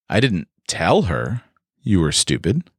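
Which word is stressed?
tell. The stress is on tell.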